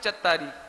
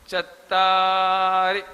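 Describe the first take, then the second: First: The final vowel is drawn out long. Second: The final vowel is kept short. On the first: The speaker calls it wrong. "तो आप बोलते हैं चत्तारी, तो इसमें रा में बड़ी की मात्रा हो जाती है, ये गलत हो जाता है।" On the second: The speaker calls it right. "रा में छोटी की मात्रा होने से उसका उच्चारण लघु कहलाता है"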